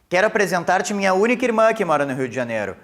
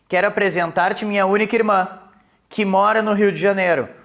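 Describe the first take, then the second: First: There is no pause after 'irmã'. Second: There is a pause after 'irmã'.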